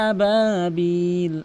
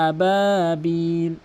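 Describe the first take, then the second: The two takes are said the same way.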